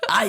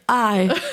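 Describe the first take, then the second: First: The word is said in a tough, threatening voice. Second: The word is said plainly, without menace. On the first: The speaker calls it right. "Like, I'm going to punch you in your face" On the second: The speaker calls it wrong. "wouldn't just be like"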